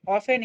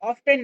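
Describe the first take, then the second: First: The word is said without a t sound. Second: The word is said with a t sound. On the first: The speaker calls it right. "यहाँ पे टी silent है इसलिए इसको ऑफन पढ़ना है" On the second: The speaker calls it wrong. "इसको ऑफ्टन नहीं पढ़ना है"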